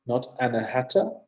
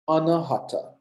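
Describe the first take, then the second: First: "anahata" with flat English a vowels; anglicized wrong take. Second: "Anahata" with open "ah" vowels, said higher; "Anahata" as ah-na-hah-ta; Sanskrit pronunciation. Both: Shown as a demonstration.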